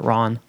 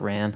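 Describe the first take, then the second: First: The vowel is a soft, open ah sound. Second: The vowel is a hard, flat A sound. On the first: The speaker calls it wrong. "they call it Ron. Disagree. Hard pass on the soft A pronunciation" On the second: The speaker calls it right. "I always call it Ran"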